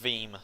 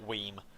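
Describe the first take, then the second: First: The name begins with a V sound. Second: The name begins with a W sound. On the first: The speaker calls it right. "I'm assuming it's Peters Veem" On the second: The speaker calls it wrong. "not Weem"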